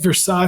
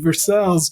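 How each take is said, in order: First: It is said the French way, ending in a vowel. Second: It is said the English way, ending in 'ls'. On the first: This is the French place name. "spelled like Versailles, France" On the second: This is the Kentucky town's name. "it's pronounced the Kentucky way"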